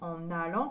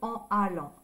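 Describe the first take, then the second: First: The n sound links directly into allant. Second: The two words are said separately without linking. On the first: The speaker calls it right. "C'est plus joli de dire en allant" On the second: The speaker calls it wrong. "que en allant"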